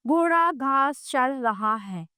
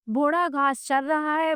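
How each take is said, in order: First: घोड़ा घास चर रहा है said slowly, word by word; slow example sentence. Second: Said in the usual way. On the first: Shown as a demonstration. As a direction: spell the example out slowly for pupils. (धीरे-धीरे साफ़ बोलकर) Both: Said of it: "उदाहरण के लिए".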